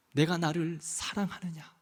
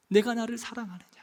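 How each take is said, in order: First: Much softer and lower, 내가 leaned on, falling end; soft question. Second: Said in the usual way. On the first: Pretend. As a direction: ask it gently, almost under the breath. The Lord's question, voiced softly.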